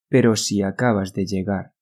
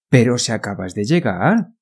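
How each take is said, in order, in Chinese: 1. 整段语调始终平平的。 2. 语调有表现力地起伏。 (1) "不能说" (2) "是pero si acabas de llegar ... 这个旋律"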